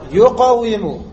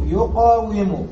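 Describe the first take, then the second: First: يقاوم said louder, yuqāwimu, with a falling end; يقاوم repeated firmly so students catch it; emphatic demo of the root form. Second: يقاوم drawn out slowly, yuqāwimu; يقاوم stretched syllable by syllable for the class; slow demo of the root form. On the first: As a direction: stress يقاوم for the class. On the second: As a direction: spell out يقاوم slowly, each syllable clear. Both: Shown as a demonstration. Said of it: "أصل، انتبهوا".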